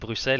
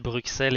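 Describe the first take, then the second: First: The x is not sounded as 'ks'. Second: The x is sounded as 'ks'. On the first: This is how the name is actually said. The speaker calls it right. "je sais que ça se dit Bruxelles" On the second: This copies how the other person said it. The speaker calls it wrong. "t'as dit Bruxelles"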